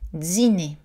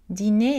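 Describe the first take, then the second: First: The d is affricated, sounding like dz. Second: The d is a plain d sound.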